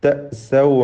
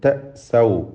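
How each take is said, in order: First: A clear glottal stop is made in the middle. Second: A clear glottal stop is made in the middle.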